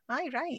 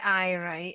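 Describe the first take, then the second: First: It is said in a sincere, agreeing tone. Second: It is said in a sarcastic, dismissive tone. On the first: The speaker agrees. "That's positive" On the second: The speaker means there is no way it will happen. "it's like, there's no way this is happening"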